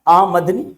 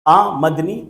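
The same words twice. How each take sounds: The two takes are said the same way.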